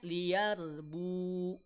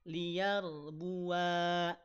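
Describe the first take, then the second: First: The final vowel is cut short. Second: The final vowel is held for two beats. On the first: The final alif is not pronounced. "Jadi hilang alifnya" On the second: The final alif is pronounced when stopping. "Kalau waqaf di sana jadi panjang dua harokat"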